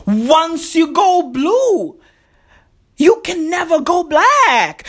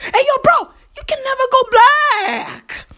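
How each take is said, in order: First: Said in the usual way. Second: Much higher, mock-preachy repeat of the slogan; pitched-up slogan. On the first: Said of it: "Do you know what that means". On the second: Repeating his slogan to the crowd in a much higher voice. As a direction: fling the slogan up high like a hype man.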